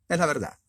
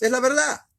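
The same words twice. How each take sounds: First: Said in the usual way. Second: Es la verdad, pitched high and pushed loud; a sudden high-pitched emphatic cry; emphatic high exclaim. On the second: Real, not acted. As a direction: hammer home the truth.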